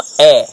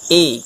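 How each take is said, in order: First: The vowel is said with an open sound. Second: The vowel is said with a closed sound. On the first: "le son ouvert de la lettre E" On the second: "qu'on appelle E fermé"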